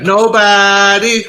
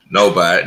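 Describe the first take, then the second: First: "Nobody" pitched high and held long; drawn-out emphasis. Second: Said in the usual way. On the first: Real, not acted. Co-host agreeing on who had swagger, "Nobody" drawn out high. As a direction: stretch "Nobody" out on a high, sustained note. Emphatic repeat of his answer.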